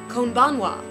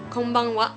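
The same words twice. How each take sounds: The two takes are said the same way.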